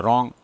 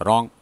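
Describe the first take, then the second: Both takes have the same delivery.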